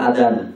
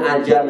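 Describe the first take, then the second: First: The middle consonant is a d sound. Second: The middle consonant is a j sound. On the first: This is how Sundanese people say it. "Orang Sunda manggil adan" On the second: This is how Jakarta people say it. "orang Jakarta manggilnya ajan"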